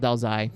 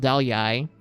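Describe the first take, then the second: First: The second word begins with a Z sound. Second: The second word begins with a Y sound. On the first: This is the Northern Vietnamese pronunciation. "while in the North it's called ... For the North, it's a Z sound" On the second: This is the Southern Vietnamese pronunciation. "I'll tell you the South one ... For the South, it's a Y sound"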